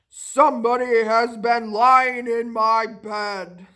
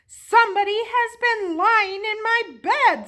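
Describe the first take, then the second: First: It is said in a rough, gruff voice. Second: It is said in a middle voice.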